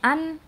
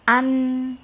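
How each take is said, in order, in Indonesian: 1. Bunyi n di akhir pendek, dengan sedikit dengung sengau. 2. Bunyi n di akhir terasa jelas dengung sengaunya. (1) "kalau misalkan cuman an, dia belum sampai ke makhraj dan menunaikan sifat-sifat gunahnya" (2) "sampai berasa ada sengau di hidung"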